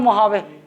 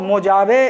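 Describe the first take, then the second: First: The middle consonant is an H sound. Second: The middle consonant is a J sound. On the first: It is how the locals say it. "मोहावे बोलते हैं" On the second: It is read just as it is written. "मोजावे इसको पढ़ते हैं"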